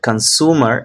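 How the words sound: It is said in an American accent. "in American accent"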